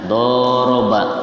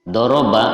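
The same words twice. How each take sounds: First: The first vowel is long. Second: The first vowel is short. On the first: Two people hit each other. "kalau dodnya dipanjangkan" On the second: One person hits. "dodnya pendek"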